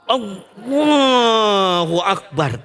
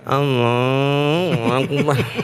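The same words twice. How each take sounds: First: It is said fervently, with strong energy. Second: It is said limply, with low energy.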